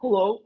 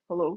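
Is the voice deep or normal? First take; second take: normal; deep. First: It is said in her normal voice. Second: It is said in a deep, manly voice.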